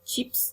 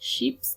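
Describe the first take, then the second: First: It is pronounced with an English sound. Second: It is pronounced with a French sound. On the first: "चिप्स English में है" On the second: "chips French में है"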